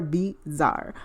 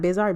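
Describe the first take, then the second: First: "bizarre" split into two stretched syllables; drawn-out pronunciation. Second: Said in the usual way. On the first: Shown as a demonstration. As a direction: draw out "bizarre", separating the syllables. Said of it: "Not bizarre, bizarre". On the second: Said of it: "Not bizarre".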